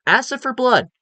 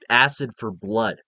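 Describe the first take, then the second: First: "Acid for blood" pitched much higher, punched; emphatic repeat. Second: Said in the usual way. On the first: Real, not acted. Stressing the xenomorph's deadliest trait, "Acid for blood" high and punched.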